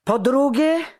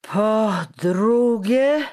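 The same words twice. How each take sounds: First: High, loud angry outburst; furious shout. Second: Very slow, high, loud bellow; drawn-out furious shout. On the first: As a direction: yell it out in a fury. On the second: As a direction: stretch each syllable into an angry yell. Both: A narrator's reading. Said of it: "krzyknął czekan w nabrzmiałej ręce ściskając".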